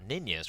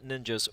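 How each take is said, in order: First: The name is said with a Swedish pronunciation. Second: The name is said with an English pronunciation.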